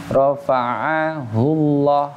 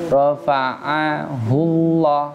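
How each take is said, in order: No difference in how they are said.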